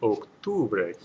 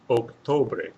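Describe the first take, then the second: First: The second vowel is an 'oo' sound. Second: The second vowel is an 'o' sound. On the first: The speaker calls it right. "with an oo sound in there" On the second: The speaker calls it wrong. "which does not sound right"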